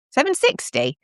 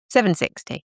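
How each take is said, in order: First: Higher, questioning repeat; puzzled repeat. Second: Said in the usual way. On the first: Shown as a demonstration. Repeating a viewer's odd time. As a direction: echo the odd time back in surprise. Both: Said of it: "There's no such thing as seven sixty".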